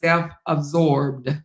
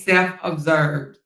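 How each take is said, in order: First: The middle syllable sounds like 'ab-sorbed'. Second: The middle syllable sounds like 'ob-served'. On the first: The speaker calls it right. "It's self-absorbed" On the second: The speaker calls it wrong. "it ain't self-observed"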